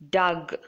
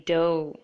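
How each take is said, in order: First: The word ends with a hard G sound. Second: The word ends in a vowel, no G sound. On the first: The speaker calls it wrong. "it's not Doug" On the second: The speaker calls it right. "It should be dough and G H. Both are silent here"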